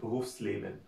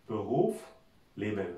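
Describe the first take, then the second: First: The two parts run together with no pause. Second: There is a pause between the two parts. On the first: The speaker calls it right. "এসটা সহ ... থামাটার আর প্রয়োজন নাই" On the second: The speaker calls it wrong. "এস ছাড়া করি তাহলে হয় এরকম ... মাঝখানে থামতে হইতেছে"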